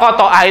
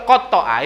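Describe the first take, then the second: First: "qata'a" with a single, quick t; without tasydid. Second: "qata'a" with a doubled, held t; with tasydid. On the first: Preacher contrasting simple cutting with mutilating, single short t. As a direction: say "qata'a" loudly, t not doubled. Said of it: "Tapi kalau qata'a itu motong sambil gemes". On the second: Preacher explaining cutting in exasperated delight, t doubled. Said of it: "di atas huruf to itu ada tasydid". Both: Shown as a demonstration.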